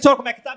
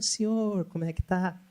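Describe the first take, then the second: First: The phrase is spoken quickly and casually. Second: The phrase is spoken slowly and calmly. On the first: It does not match the elderly listener's pace. The speaker calls it wrong. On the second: It matches a slow-speaking elderly listener. The speaker calls it right.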